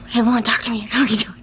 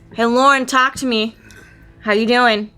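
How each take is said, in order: First: It is said at a quieter volume. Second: It is said at a louder, normal volume.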